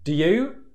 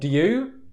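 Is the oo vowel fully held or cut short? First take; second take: cut short; cut short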